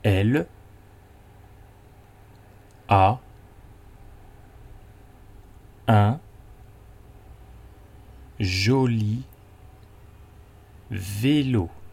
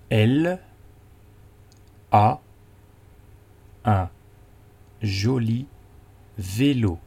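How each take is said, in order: First: It is said slowly. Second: It is said at normal speed.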